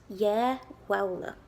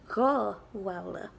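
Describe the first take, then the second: First: The first word begins with a Y sound. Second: The first word begins with a G-like sound. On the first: This is the form used in parts of Ulster. "It's only in some parts of Ulster that you say "yeah."" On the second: This is the form used in most of Ireland. "That's how it's said throughout most of Ireland"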